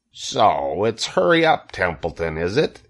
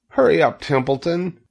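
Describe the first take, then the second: First: Mocking imitation. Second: Urgent plea. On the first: Rat mimics Wilbur's plea, mocking imitation. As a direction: mimic the pig on the middle words. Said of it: "began imitating Wilbur's voice". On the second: Wilbur urges the rat to hurry, urgent plea. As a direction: urge him on in a high voice. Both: A narrator's reading.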